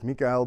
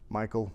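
First: The name is pronounced the German way. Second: The name is pronounced the American way. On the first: The name is treated as a German name. "He was German, so you would think Michael" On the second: The name is treated as an American name. "but he moved to the US, so Michael"

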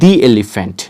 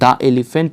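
First: The word 'the' is said as 'thee'. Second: The word 'the' is said as 'thuh'. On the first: The speaker calls it right. "তাহলে এখানে কি হবে দি elephant" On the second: The speaker calls it wrong. "এটা কিন্তু দ্য elephant হবে না"

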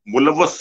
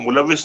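First: The second syllable has an 'a' vowel. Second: The second syllable has an 'i' vowel. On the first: This is how Pakistani Punjabi speakers say it. "मुलवस सी" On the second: This is the standard Urdu form. "अब वो मुलविस नहीं कहेंगे"

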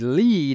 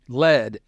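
First: The vowel is long, as in 'see'. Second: The vowel is short, as in 'bed'. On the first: The speaker calls it right. "I wanted it to say lead as in EE" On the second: The speaker calls it wrong. "lead as in the metal"

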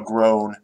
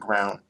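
First: The vowel sounds like the one in 'go'. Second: The vowel sounds like the one in 'down'. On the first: The speaker calls it right. "it has the vowel in go" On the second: The speaker calls it wrong. "not ground"

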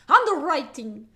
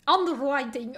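First: The word is said in a plain accent. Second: The word is said with a marked accent.

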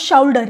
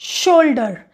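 First: The first vowel sounds like 'ow'. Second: The first vowel sounds like 'oh'. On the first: The speaker calls it wrong. "जो हमने sound से read करा वो बना शाउल्डर" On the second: The speaker calls it right. "लेकिन हम इसको बोलेंगे शोल्डर"

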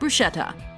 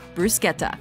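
First: The middle consonant is said as 'sh'. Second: The middle consonant is said as 'sk'. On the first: The speaker calls it wrong. "Common mispronunciation" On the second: The speaker calls it right. "Correct pronunciation"

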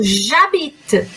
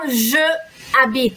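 First: Je loses its vowel and joins habite. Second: Je keeps its vowel, said apart from habite. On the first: The speaker calls it right. "eu falo j'habite" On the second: The speaker calls it wrong. "eu já não falo je habite"

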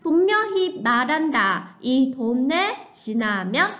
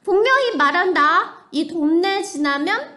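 First: It is said in a plain, neutral tone. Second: It is said in an impatient, annoyed tone.

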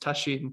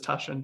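First: The name is said the Japanese way. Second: The name is said the anglicized way. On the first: This is the original pronunciation in the source language. "In Japanese, it's Tasshin" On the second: This is how most people, including the speaker, say it. "almost everyone says Tashin, so including me"

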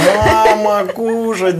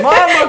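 First: It is said in a drowsy, sleepy voice. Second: It is said in a calm, alert voice. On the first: The speaker calls it right. "прям с просонья. Да, примерно так" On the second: The speaker calls it wrong. "Не так спокойно, да?"

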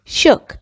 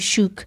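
First: The vowel sounds like in book. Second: The vowel does not sound like in book. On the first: The speaker calls it right. "مثل تلفظ book هست" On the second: The speaker calls it wrong. "نمیگیم shook"

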